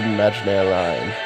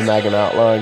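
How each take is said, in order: First: The name is said like 'Magnair'. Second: The name is read out the way it's spelled. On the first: The speaker calls it right. "But it is pronounced the Magnair line" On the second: The speaker calls it wrong. "because that's how it's spelled"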